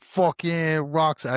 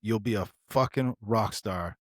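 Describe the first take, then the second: First: Slow, higher put-on voice trying his accent; attempted Stoll accent. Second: Said in the usual way. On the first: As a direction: drawl it out like the mentor. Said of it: "I can't do his fucking accent". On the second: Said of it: "Actually, he would be like".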